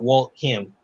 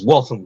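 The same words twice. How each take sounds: First: The name is pronounced the way outsiders say it. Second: The name is pronounced the way locals say it. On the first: The speaker calls it wrong. "not Waltham" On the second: The speaker calls it right. "and it's Waltham"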